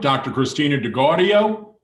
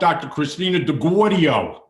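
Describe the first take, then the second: First: It is said in a neutral accent. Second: It is said in a New York accent.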